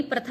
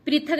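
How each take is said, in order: First: पृथक as pra-thak; short a after प्र in पृथक; correct form. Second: पृथक as pri-thak, high; i after प्र in पृथक; wrong form. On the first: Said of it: "पृथक होता है". (सही उच्चारण, पृथक) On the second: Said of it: "पृथक नहीं". (गलत उच्चारण, प्रिथक) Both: Shown as a demonstration.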